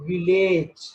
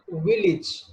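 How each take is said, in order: First: The ending is pronounced like the word 'age'. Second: The ending is pronounced as a short 'ij'. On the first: The speaker calls it wrong. "It is not village" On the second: The speaker calls it right. "There is age sound that must be ich"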